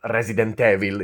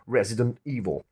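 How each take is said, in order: First: The two words are run together as one. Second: The two words are kept clearly separate. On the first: The speaker calls it wrong. "It's not Resident Evil. It's it sounds like it's a single word" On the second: The speaker calls it right. "not meshing the two words together"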